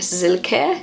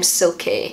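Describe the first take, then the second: First: The name begins with a Z sound. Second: The name begins with an S sound. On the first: The speaker calls it right. "the way Germans pronounce it is more like Silke, sort of like with a Z rather than an S" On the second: The speaker calls it wrong. "I just automatically thought you pronounce the name Silky, as in like silky hair"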